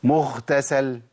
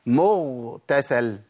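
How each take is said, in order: First: "مغتسل" with air on the غ near خ; breathy ghain error. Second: "مغتسل" with a voiced, breathless غ; slow "مغتسل", غ with no air; correct voiced ghain. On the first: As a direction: let the غ of "مغتسل" leak breath. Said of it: "ما أقولش". ("مغتسل" بنفس يقربها من الخاء) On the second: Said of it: "أقول إيه؟". ("مغتسل" بغين مجهورة) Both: Shown as a demonstration.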